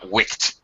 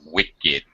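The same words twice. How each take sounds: First: The word is said as one syllable. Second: The word is said as two syllables. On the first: The speaker calls it wrong. "it's not wicked. There is no verb to wick" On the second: The speaker calls it right. "you have to concern yourself with actually pronouncing two syllables"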